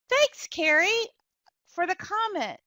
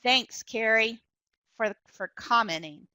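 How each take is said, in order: First: It sounds sincerely grateful. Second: It sounds annoyed and dismissive.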